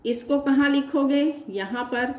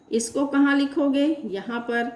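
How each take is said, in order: Both takes have the same delivery.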